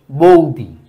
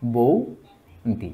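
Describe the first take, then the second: First: Said in the usual way. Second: বৌদি stretched out slowly and softly. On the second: Shown as a demonstration. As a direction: draw out বৌদি for the class. (বৌদি খুব ধীরে টেনে) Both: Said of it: "ব্যঞ্জনচ্যুতি হয়ে ধ্বনি পরিবর্তন".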